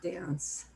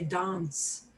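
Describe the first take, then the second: First: It is said with an American accent. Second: It is said with a British accent. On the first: "not dance" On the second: "people who are from Britain will say dance"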